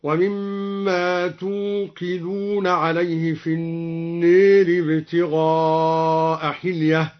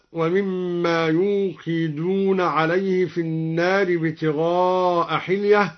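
First: "توقدون" begun with t, slow drawn-out recitation; taa of address. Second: Said in the usual way. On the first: Shown as a demonstration. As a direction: recite "توقدون" with an initial t instead of y, stretched out. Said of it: "قرأ الدوري بتاء الخطاب هكذا". (تلاوة "توقدون" بتاء الخطاب في أولها) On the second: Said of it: "قرأ الدوري بتاء الخطاب".

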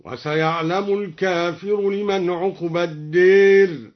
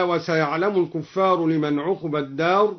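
First: "الكافر" with long aa and short i, "الدير" tilted to deer; slow recitation, "الكافر" as kaafir and "الدير" with a long e; singular al-kaafir. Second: Said in the usual way. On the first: Shown as a demonstration. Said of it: "بفتح الكاف وألف بعدها". ("الكافر" بفتح الكاف وألف بعدها، مع إمالة "الدير") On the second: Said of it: "قرأ الدوري بفتح الكاف".

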